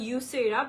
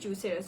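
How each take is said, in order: First: The name starts with a Y sound. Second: The name starts with a J sound. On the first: This is how it is said in Spain. "স্পেনে অ্যাকচুয়ালি এটার প্রনাউন্সিয়েশনটা হয়" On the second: This is how it is said in Bangladesh. "বাংলাদেশের ইয়েতে বলি সেক্ষেত্রে নামটা আসবে"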